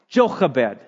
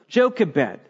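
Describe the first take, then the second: First: The name is said with Hebrew sounds. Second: The name is said with English sounds.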